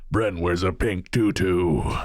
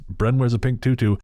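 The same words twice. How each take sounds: First: It is said in a put-on voice. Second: It is said in his normal voice.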